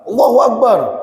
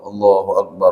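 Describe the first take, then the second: First: It is shouted loudly and suddenly. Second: It is said in a calm, quiet voice.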